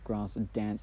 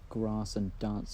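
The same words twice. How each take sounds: First: The vowel in grass and dance is short. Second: The vowel in grass and dance is long. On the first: It sounds natural and informal. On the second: It sounds formal and posh.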